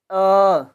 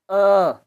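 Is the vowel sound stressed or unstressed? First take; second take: stressed; stressed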